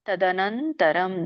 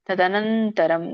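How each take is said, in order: Both takes have the same delivery.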